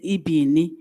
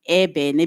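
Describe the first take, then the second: First: The vowels sound like 'ee'. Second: The vowels sound like 'eh'. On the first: This is how others say the word. The speaker calls it wrong. "They pronounce it as ibini" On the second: This is how the word should be said. The speaker calls it right. "in the actual sense is supposed to be ebene"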